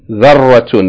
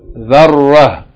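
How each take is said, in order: First: The word ends in a t sound with 'un'. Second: The word ends in a soft h without vowels. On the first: The reading continues past the word. "If we continue reading, we pronounce it like ta with its vowels" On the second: The reader stops on the word. "If you stop on it, we don't pronounce it like ta, we pronounce it like ha"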